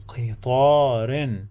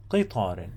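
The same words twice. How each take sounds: First: Slow, with the long vowel held; drawn-out teaching pronunciation; slow model word. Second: Quicker, lower repeat in one piece; low, joined-up pronunciation; natural model word. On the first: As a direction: draw the word out syllable by syllable. Teacher models word slowly, then naturally. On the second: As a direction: say the word compactly, dropping in pitch. Teacher repeats the word at natural speed. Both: Shown as a demonstration.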